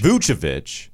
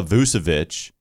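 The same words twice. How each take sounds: First: Vucevic with a CH sound, VOO-chuh-vitch; CH in the middle of Vucevic; corrected pronunciation. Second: Vucevic with an S sound, VOO-suh-vitch; mispronounced Vucevic. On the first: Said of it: "there's two C H's here". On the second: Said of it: "get back to the mispronunciation". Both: Real, not acted.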